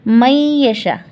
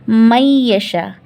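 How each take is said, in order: Both takes have the same delivery.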